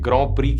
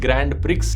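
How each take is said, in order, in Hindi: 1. अंतिम व्यंजन साइलेंट रहते हैं, फ्रेंच स्टाइल में। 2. अंतिम d और x की ध्वनियाँ बोली जाती हैं। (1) "फ्रेंच शब्द है तो इसे ग्रॉ प्री कहते हैं" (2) "दिखने में लगता है कि इसकी प्रोनाउंसिएशन होगी"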